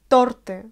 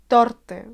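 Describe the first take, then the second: No difference in how they are said.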